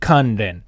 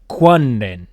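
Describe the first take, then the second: First: The name begins with a plain 'kan' sound. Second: The name begins with a 'kwan' sound. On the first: This is how the name is said today. "Today we would pronounce it Kanren" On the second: This is how the name was said in old times. "they would have said Ku-wan-ren"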